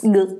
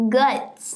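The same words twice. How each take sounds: First: Guts barked short and louder; punchy loud Guts. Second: Said in the usual way. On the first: Shown as a demonstration. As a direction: slam the word Guts like a show title. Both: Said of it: "I had to say it like that".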